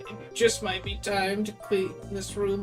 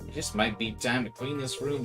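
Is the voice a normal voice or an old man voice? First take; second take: old man; normal. First: It is read in an old man voice. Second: It is read in a normal voice.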